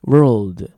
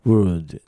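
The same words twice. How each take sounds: First: Loud "World" with curled r and clear l; pronunciation of WORLD. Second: "word" with curled r and no l; pronunciation of WORD. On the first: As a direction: punch out "World", tongue tip up for the l before d. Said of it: "どっちがどっちかね". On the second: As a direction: say "word" with one tongue curl straight into d. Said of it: "一番がwor". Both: Shown as a demonstration.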